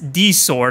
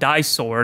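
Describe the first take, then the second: First: The first word sounds like the letter D. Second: The first word sounds like the word die. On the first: The speaker calls it right. "Yes, it's D sword" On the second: The speaker calls it wrong. "I've been calling it die sword"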